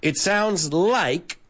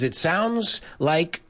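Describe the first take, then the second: First: "It sounds like" langzaam voorgezegd; "like" duidelijk uitgesproken aan het eind; model phrase. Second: "It sounds like" met nadruk; include like. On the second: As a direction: zeg "It sounds like" traag, met duidelijke "like" op het eind. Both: Shown as a demonstration. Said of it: "don't leave it out".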